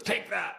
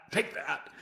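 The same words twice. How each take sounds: First: Higher-pitched taunt tossed off lightly; mock defiant taunt. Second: A little higher, taunt fading slightly; mock defiant taunt, repeated. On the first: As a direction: jeer like a cornered bad guy. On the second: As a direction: repeat the jeer, a bit less punch. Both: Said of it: "and he goes".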